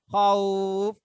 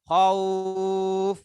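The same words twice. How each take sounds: First: The vowel is held for a short time. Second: The vowel is held for a long time.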